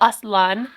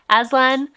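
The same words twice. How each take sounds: First: The name is said with a Turkish pronunciation. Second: The name is said with an English pronunciation. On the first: "is the Turkish" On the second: "the way that I would normally pronounce it"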